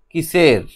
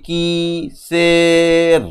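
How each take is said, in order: First: Said in the usual way. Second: "কিসের" split into long held syllables, কি-সের; sounding out. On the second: Shown as a demonstration. Teacher shows reading at sight, "কিসের" stretched by syllable. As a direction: draw out both halves of "কিসের". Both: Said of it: "দেখেই বুঝতে পারি".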